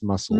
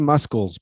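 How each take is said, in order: First: No k sound is heard after the s. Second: A k sound is heard after the s. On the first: The speaker calls it right. "the C is silent. It's muscles" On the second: The speaker calls it wrong. "It should be muscles, but it's not"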